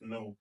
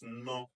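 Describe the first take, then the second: First: The vowel has its sound in the word. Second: The vowel has its blended phonics sound. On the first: The word stands alone. "when it's standing alone, it's pronounced as no" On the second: The syllable is part of a blended word. "When it's with other letters, it's pronounced as no"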